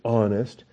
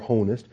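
First: The word starts with no H sound. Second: The word starts with an audible H sound. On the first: The speaker calls it right. "You say honest" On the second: The speaker calls it wrong. "You don't say honest"

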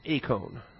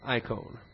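First: The first vowel sounds like 'ay'. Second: The first vowel sounds like 'eye'. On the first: "pronounce the epsilon iota diphthong as an A" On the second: "sometimes it's pronounced I"

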